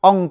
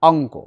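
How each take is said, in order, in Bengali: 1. শব্দটি একটি খালি ব্যঞ্জনবর্ণে শেষ হয়। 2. শব্দটি 'o' স্বরধ্বনি দিয়ে শেষ হয়। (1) "অঙ্ক নয়" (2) "শেষে কি ওকারান্ত"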